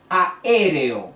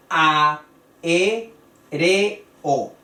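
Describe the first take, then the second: First: Aéreo as one word, stressed on the first E. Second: A, e, re, o with a pause between each; syllable by syllable. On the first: Teacher presents a word with hiatus, Aéreo stressed on É. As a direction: punch the É in Aéreo. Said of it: "la sílaba acentuada". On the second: Teacher counts out syllables, a, e, re, o, each separate and firm. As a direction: break aéreo into four separate beats. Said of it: "Hay cuatro sílabas". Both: Shown as a demonstration.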